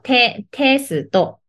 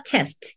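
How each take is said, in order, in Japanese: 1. 「s」と「t」の後には余分な母音が続く。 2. 「s」と「t」の後には母音が続かない。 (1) "日本語はテスト。なんかちょっと重いですよね" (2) "英語はテスト"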